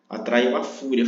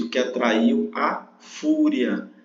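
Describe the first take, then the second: First: Said in the usual way. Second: O que atraiu a fúria, very slow and deliberate; slow down and stress fúria; fúria weighted in a slow read; slow emphasis. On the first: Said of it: "mais uma vez". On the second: Shown as a demonstration. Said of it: "Vamos lá, mais uma vez".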